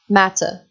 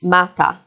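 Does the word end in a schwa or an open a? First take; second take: schwa; open a. First: The word ends in a weak schwa vowel. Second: The word ends in an open a vowel. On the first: "in British English is, is um, the sound uh, like the word matter" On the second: "in African Englishes. So a word like matter would be pronounced mata"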